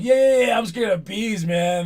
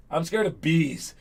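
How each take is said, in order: First: Higher, louder, hammed-up mock cheer; mocking agreement. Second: Said in the usual way. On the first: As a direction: jeer back "I'm scared of bees" like teammates making fun. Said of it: "And everyone's like". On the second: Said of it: "And the guy was like".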